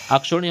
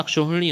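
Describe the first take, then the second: First: अक्षौणी without the "h", "akshauni"; wrong pronunciation. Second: अक्षौहिणी with an added "h", "akshauhini"; correct pronunciation. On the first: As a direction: go straight from "shau" to "ni" in अक्षौणी. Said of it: "अक्षौहिणी होता है". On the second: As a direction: sound the "hi" before "ni" in अक्षौहिणी. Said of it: "होता है". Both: Shown as a demonstration.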